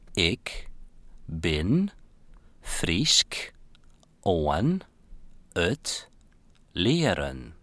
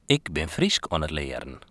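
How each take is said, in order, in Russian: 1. Произносится очень медленно и тщательно. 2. Произносится в обычном темпе.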